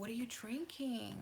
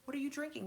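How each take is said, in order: First: It is said in a sensual, intimate tone. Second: It is said in a plain, businesslike tone.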